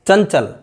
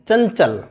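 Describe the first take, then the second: First: The nasal sounds like 'ny' before 'ch'. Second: The nasal sounds like 'ny' before 'ch'.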